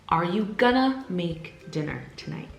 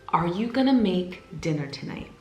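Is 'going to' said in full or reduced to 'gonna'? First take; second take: reduced; reduced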